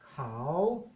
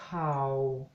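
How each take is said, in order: First: The word is said on a rising tone. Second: The word is said on a low tone. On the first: "if you apply the rising tone" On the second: It means news. "if you apply the low tone"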